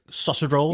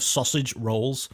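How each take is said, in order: First: "sausage roll" blurred into one word; run-together Scouse. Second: Sausage rolls drawn out slowly, each word separate; slow and specific. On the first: Shown as a demonstration. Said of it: "that's just sounds of one word". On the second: Retold or imitated. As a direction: imitate mum saying "sausage rolls" very deliberately. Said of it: "she said it so slowly and so specifically".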